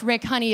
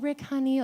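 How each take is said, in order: First: It sounds urgent and alarmed. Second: It sounds sweet and affectionate.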